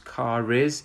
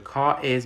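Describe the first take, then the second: First: The R sound links into the following vowel. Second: The two words are said separately, without linking.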